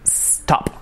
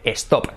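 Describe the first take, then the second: First: The word starts directly with the s sound. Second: An extra e vowel is added before the s. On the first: The speaker calls it right. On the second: The speaker calls it wrong.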